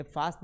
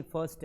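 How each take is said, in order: First: फास्ट with a long "aa" vowel; wrong pronunciation. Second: फर्स्ट with a short neutral "uh" vowel; correct pronunciation. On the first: Teacher showing the wrong breakfast ending, फास्ट with "aa". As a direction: say "faast" for फास्ट. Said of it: "ये फास्ट नहीं". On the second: Teacher correcting the breakfast ending, फर्स्ट as "fust". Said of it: "फर्स्ट है". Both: Shown as a demonstration.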